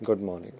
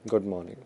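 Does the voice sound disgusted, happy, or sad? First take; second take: sad; sad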